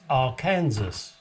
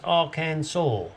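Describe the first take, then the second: First: The word ends like the word 'Kansas'. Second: The word ends with a 'saw' sound. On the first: The speaker calls it right. "If it's Kansas and you put A R in front of it, it's Arkansas" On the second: The speaker calls it wrong. "They seem to think it goes Arkansas. You can saw what?"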